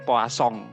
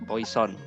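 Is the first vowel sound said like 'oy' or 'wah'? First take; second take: wah; oy. First: The first vowel sounds like 'wah'. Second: The first vowel sounds like 'oy'. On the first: The speaker calls it right. "Jadi bacanya poisson" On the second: The speaker calls it wrong. "Bukan poison"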